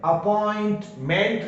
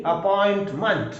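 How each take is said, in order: First: अपॉइंटमेंट ending in a full "ment"; wrong strong ending. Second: अपॉइंटमेंट ending in a reduced "munt"; weak ending. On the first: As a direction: give the last syllable of अपॉइंटमेंट a clear "e". (अपॉइंटमेंट के अंत में पूरा "मेंट" बोलें) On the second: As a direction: say the end of अपॉइंटमेंट with a schwa. (अपॉइंटमेंट के अंत में हल्का "मंट" बोलें) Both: Shown as a demonstration. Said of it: "अपॉइंटमेंट नहीं".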